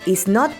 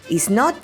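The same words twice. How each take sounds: The two takes are said the same way.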